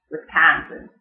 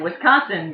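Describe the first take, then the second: First: "Wisconsin" as "wis-KAN-sin"; Yooper accent. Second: Said in the usual way. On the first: Shown as a demonstration. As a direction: front the middle vowel of "Wisconsin" to "kan". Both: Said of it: "and Wisconsin becomes Wisconsin".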